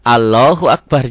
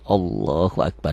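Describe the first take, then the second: First: The L in Allahu is light and thin. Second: The L in Allahu is heavy and thick. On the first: The speaker calls it wrong. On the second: The speaker calls it right. "Dibacanya jadi tebal"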